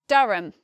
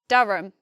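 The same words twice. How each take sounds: Both takes have the same delivery.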